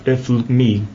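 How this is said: The vowels are swallowed and the words are compressed. "especially from the islands in Portugal, they would probably say"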